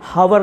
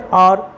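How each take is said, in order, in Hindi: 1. यह शब्द एच की आवाज़ से शुरू होता है। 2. यह शब्द स्वर की आवाज़ से शुरू होता है।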